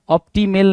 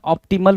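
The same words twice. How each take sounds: First: ऑप्टिमेल with a full e in the last syllable, op-ti-mel; ऑप्टिमेल ending in mel, not mul; wrong sound. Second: ऑप्टिमल with a weak last vowel, op-ti-mul; correct sound. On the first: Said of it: "ऑप्टिमेल नहीं होता है". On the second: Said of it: "ऑप्टिमल होगा ना". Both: Shown as a demonstration.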